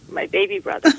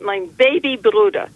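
First: Put-on high old lady voice. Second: Put-on Yiddish-accented "Bruder" for brother.

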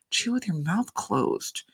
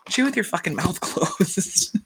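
First: Soft, slow, calm correction; quietly telling mom to chew with her mouth closed, calm and slow. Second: Slow, laughing repeat of the scold; cheering the daughter on, laughing through it; laughing echo. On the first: Daughter scolding her mother, calmly hushed. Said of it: "calmly say". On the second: Podcaster echoing the daughter's scold, laughing. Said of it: "But I was just like". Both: Retold or imitated.

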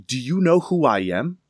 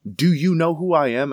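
First: Higher and louder, stress on "know", rising at the end; mock indignant. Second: Higher and louder, stress on "Do"; mock indignant. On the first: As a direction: lean on "know" like an affronted landlady. Landlady pulling rank. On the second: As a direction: hit "Do" hard, an affronted repeat. Landlady repeating it.

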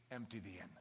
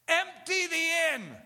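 First: Very low, soft, almost a whisper; hushed refrain. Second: Shouted refrain. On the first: Preacher repeating the refrain softly to the listeners. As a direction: drop it to nothing. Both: Real, not acted.

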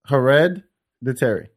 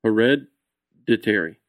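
First: Hereditary slowly, with a held d; slow careful repeat. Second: Hereditary very slow, low, with a held d; slow model pronunciation. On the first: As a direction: copy Hereditary slowly after the teacher. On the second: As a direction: teach Hereditary slowly, stretching the d. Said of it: "What's the emphasis?". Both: Shown as a demonstration.

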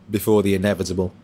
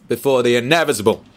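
First: Said in the usual way. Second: INEVITABLE lifted in pitch, breaking into a laugh; emphasis on INEVITABLE. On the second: Real, not acted. Streamer repeating his ominous phrase to chat, stressed INEVITABLE. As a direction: lean on "inevitable", then chuckle.

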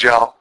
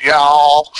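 First: "y'all" short and quick, as yahl; Chattanooga y'all. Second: "y'all" drawn out long, Texas style. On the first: Comparing Chattanooga with Texas, "y'all" short and quick. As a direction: cut "y'all" short with an open ah. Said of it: "And Chattanooga's". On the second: Comparing Texas with Chattanooga, "y'all" drawn out long. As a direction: stretch "y'all" into a long yawl. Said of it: "a little bit different than Texas would". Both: Shown as a demonstration.

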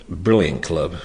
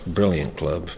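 The two takes are said the same way.

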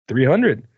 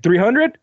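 First: Said in the usual way. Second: Surprised question. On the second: Retold or imitated. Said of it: "she's like".

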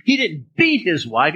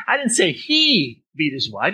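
First: "beat" drawn out and punched; stress on BEAT. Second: "he" stretched and raised; stress on HE. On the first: Teacher hinting at something milder, stress on "beat". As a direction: hit "beat" hard and slowly. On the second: Teacher pointing blame at others, stress on "he". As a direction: lean hard on the word "he". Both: Shown as a demonstration. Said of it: "change it all around by what we emphasize".

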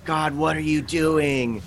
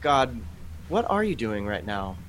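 First: Slower, exasperated plea to God; frustrated demand. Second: Calm, sincere question to God; open asking. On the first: College student fed up with God, exasperated. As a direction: throw up your hands and demand answers. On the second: Believer calmly asking God what he is doing, sincere. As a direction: ask gently, ready to listen. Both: Retold or imitated. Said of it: "As opposed to saying".

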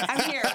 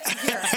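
First: Said in the usual way. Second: Laughing. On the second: Real, not acted. Repeats while laughing.

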